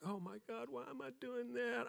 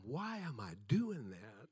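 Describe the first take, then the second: First: High, thin panicked thought; rising inner panic. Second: Said in the usual way. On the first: Retold or imitated. Preacher reliving his stage panic, high panicked thought. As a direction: pitch it up like dread creeping in.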